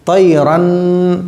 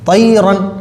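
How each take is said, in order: First: The final n is drawn out through the nose. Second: The final n is short and clear, not held. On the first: The speaker calls it wrong. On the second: The speaker calls it right.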